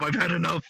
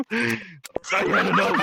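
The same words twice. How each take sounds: First: Said in the usual way. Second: Slow laughing declaration. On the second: Acted. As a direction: drag it out while laughing.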